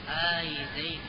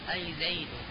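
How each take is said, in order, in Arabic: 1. الحركة طويلة. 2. الحركة قصيرة.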